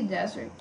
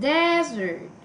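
First: Said in the usual way. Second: Desert with DES high and stretched; stress on first syllable. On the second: Shown as a demonstration. Teacher testing desert for stress, first syllable exaggerated. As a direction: sound out desert, lifting and lengthening DES. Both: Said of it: "same syllable stress pattern".

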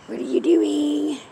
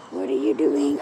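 First: Said in the usual way. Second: Low repeat. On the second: Real, not acted. Asking cat twice.

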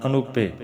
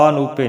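First: ਅਨੂਪੇ as a-noo-pe, brief opening a; short light a starting ਅਨੂਪੇ, falling end; correct short first vowel. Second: ਅਨੂਪੇ as aa-noo-pe; long aa starting ਅਨੂਪੇ; wrong long first vowel. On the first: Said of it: "ਅਨੂਪੇ ਪਾਠ ਕਰਨਾ". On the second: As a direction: stretch the opening vowel of ਅਨੂਪੇ to aa. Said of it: "ਨਹੀਂ ਕਰਨਾ". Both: Shown as a demonstration.

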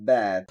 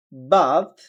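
First: American "bath" with AE; American accent. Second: British "bath" with open AH; British accent. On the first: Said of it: "আমেরিকানরা বলতেছে অ্যা". (American উচ্চারণে) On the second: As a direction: say "bath" as BAHTH, British style. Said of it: "ব্রিটিশরা বলতেছে আ". (British উচ্চারণে) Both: Shown as a demonstration.

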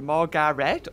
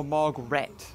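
First: "Margaret" in three parts, Mar-ga-ret; "Margaret" spaced out as Mar-ga-ret; three-syllable pronunciation. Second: "Margaret" in two parts, Marg-ret; "Margaret" shortened to Marg-ret; two-syllable pronunciation. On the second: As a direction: say "Margaret" without the middle "a". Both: Shown as a demonstration. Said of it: "Is it Margaret or Margaret".

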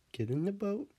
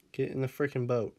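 First: High, lilting rise to the end; higher-pitched coaxing call with upturned ending. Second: Firm order with falling end; understated exasperation at a stubborn pet; mildly exasperated. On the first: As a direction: coax a pet in a high, rising voice. Coaxing her dog into boat. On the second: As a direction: lose patience a little, landing it downward. Losing patience with the dog. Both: Real, not acted.

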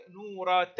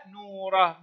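First: Softer نورة ending in "ta"; ta with its vowel. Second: نورة falling to a final "ah"; ha at a pause. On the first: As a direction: sound the ta marbuta of نورة as "ta". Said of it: "تنطق تاء". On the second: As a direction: end نورة on h, without the t. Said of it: "ما نوع التاء؟". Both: Shown as a demonstration.

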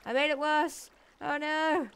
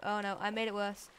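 First: A higher, louder cry of alarm; panicked shout at his own blunder. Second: Said in the usual way. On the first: Real, not acted. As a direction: blurt it out in sudden panic. Panics over flooding.

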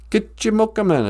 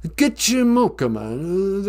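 First: Gitchimokuman said clearly, stress on GITCH; teaching pronunciation. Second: Gitchimokuman said slowly syllable by syllable; slow repeat. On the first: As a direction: Gitchimokuman spelled out as kitch-uh-mook-uh-mun. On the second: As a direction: Gitchimokuman drawn out for learners. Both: Shown as a demonstration. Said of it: "It's called a great knife".

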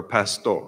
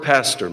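First: "pastor" said as Spanish pas-TOR; Spanish pronunciation. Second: Said in the usual way. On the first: Shown as a demonstration. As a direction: say "pastor" the Spanish way, stressed on the last syllable. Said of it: "people here that speak Spanish". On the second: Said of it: "or pastor mean".

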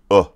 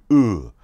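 First: Uh as an open, short English "uh"; English vowel. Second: Uh as a closed "ü"-like vowel, held and falling; Mandarin vowel. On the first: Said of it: "as if you're going". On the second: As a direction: tighten uh and let it fall. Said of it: "but you're going". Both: Shown as a demonstration.

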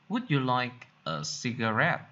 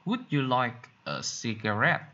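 The two takes are said the same way.

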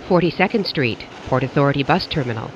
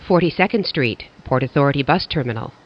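Both takes have the same delivery.

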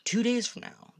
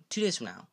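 First: Excited. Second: Said in the usual way. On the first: Real, not acted. Excited about game release.

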